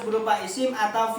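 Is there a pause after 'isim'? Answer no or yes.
no. It runs on with no pause after 'isim'. Both nouns and verbs must begin with 'an'. The speaker calls it wrong. "Kalau kalian baca nggak ada komanya"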